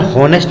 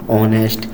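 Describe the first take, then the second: First: हॉनेस्ट with a sounded h at the start; wrong pronunciation. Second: ऑनेस्ट with a silent h, opening on the vowel ऑ, softer; right pronunciation. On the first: Teacher showing kids' mistaken reading of honest, h sounded. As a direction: say हॉनेस्ट with the h, as small children do. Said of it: "छोटे छोटे बच्चे इसको हॉनेस्ट पढ़ते हैं". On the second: Teacher giving children the correct honest, silent h, softly. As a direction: say ऑनेस्ट starting straight on ऑ. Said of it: "ये होता है हमारा". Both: Shown as a demonstration.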